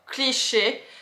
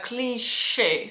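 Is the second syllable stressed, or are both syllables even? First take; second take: even; second stressed. First: Both syllables are said with even stress. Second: The second syllable carries clear extra stress. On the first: "If you pronounce in French, we don't really emphasize into the word" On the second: "it's more in the American English way, I very like emphasize a little bit on the second part of the word"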